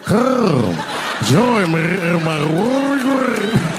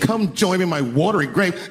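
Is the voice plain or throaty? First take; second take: throaty; plain. First: It is said in a rolling, throaty voice. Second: It is said in a plain voice.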